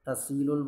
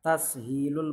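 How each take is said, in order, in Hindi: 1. बीच की h आवाज़ छोड़ दी जाती है। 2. बीच की h आवाज़ बोली जाती है। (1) "हा को ख़त्म करके तसीलुल तसीलुल बोल देते हैं" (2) "बल्कि सही लफ्ज़ तसहीलुल मसादिर ये बोलना है"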